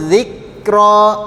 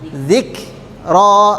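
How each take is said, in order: First: The k has no escaping breath. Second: The k is followed by escaping breath. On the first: The speaker calls it wrong. "Kalau huruf kafnya tidak pakai udara, bunyinya seperti ini" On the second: The speaker calls it right.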